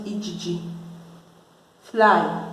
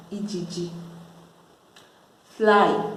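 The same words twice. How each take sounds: The two takes are said the same way.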